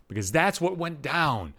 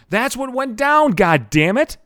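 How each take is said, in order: First: Said in the usual way. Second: Higher, louder, drawn-out exasperation; slow it right down and push it out, exasperated; exasperated outburst. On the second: Real, not acted. Podcaster owning up to his embarrassment, exasperated. Exasperated repeat of the same admission.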